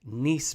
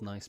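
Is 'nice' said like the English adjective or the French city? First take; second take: French city; English adjective. First: It is said like the French city, rhyming with niece. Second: It is said like the English adjective nice. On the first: This is the name's true origin. "the proper pronunciation I found out from this article is Nice biscuits, like the city in the south of France" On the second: This is how people usually say it. "we say nice biscuits"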